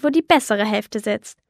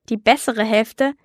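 First: Leicht herablassend, die bessere Hälfte betont; herablassend grinsend. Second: Ungläubige Frage, die bessere Hälfte mit steigendem Ton; entrüstet nachäffen; empört ungläubig. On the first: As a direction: ein Hauch von arrogantem Spott. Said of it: "sagte der Mann und grinste". (der Raucher spottet über die Kinder: leicht herablassend grinsend) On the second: (Lola wiederholt empört die Worte des Mannes: ungläubig fragend, Ton steigt am Ende) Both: Acted.

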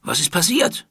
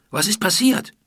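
First: Raised, rising shouted question; calling out. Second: Raised, rising urgent question; calling out. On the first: Palace guard calls out to the crowd, alarmed. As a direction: call out sharply across the crowd. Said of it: "rief eine der Wachen". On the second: Julian calls out the question to Iti, worried. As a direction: call the question out loud and urgent. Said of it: "rief Julian". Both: Acted.

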